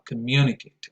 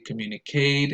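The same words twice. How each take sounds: First: The stress falls on the second syllable. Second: The stress falls on a syllable other than the second. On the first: The speaker calls it right. "the right stress is uh, communicate ... second syllable" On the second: The speaker calls it wrong. "I hear some learners say"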